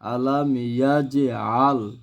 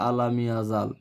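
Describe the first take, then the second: First: The j bounces, splitting it from the following vowel. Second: The j runs smoothly into the following vowel. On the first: The speaker calls it right. "এই জিমটা হচ্ছে কলকলা হরফ" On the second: The speaker calls it wrong. "অনেকে পরে আলাম ইয়াজাল"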